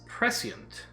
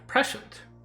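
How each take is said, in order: First: The middle consonant is an s sound. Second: The middle consonant is a sh sound. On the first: The speaker calls it right. "the S C is still a S instead of a sh" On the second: The speaker calls it wrong. "I always thought that had the same sound"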